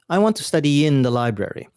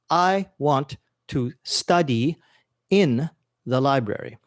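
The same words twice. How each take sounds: First: The words are linked in connected speech. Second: Each word is pronounced separately and carefully. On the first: The speaker calls it right. "English has more of a connected pronunciation" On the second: The speaker calls it wrong. "pronouncing every word very carefully"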